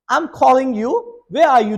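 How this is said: It is spoken in a British accent. "in the British accent"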